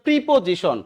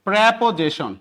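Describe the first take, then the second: First: The first vowel sounds like 'ee'. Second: The first vowel sounds like 'eh'. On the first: The speaker calls it wrong. "আপনারা উচ্চারণ করে প্রিপোজিশন, না" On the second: The speaker calls it right. "এটার উচ্চারণ কি? প্রেপোজিশন"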